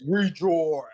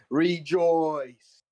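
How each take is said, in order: First: Loud demonic shout. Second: Booming ancient shout; celestial shout. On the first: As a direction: bellow it like a possessed demon. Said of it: "Kind of demonic voice". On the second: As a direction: proclaim it like a divine cry. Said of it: "he screams the word in an ancient celestial". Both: Acted.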